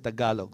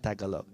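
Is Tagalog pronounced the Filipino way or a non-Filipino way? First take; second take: Filipino; non-Filipino. First: The word is said in the Filipino way. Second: The word is said in a non-Filipino way. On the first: The speaker calls it right. "the right way because he's Filipino" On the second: The speaker calls it wrong. "he doesn't say Tagalog"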